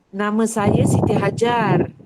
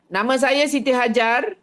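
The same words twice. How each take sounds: First: The voice is soft and controlled. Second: The voice is harsh and forceful. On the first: The speaker calls it right. "Boleh lembut kan?" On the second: The speaker calls it wrong. "Daripada yang macam ni"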